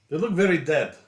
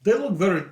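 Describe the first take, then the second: First: Said in the usual way. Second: Slightly raised, borrowed way of talking; talking like another player. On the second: Real, not acted. Player examining prisoners slips into friend's voice, lightly imitated. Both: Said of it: "it's t-, talking like you".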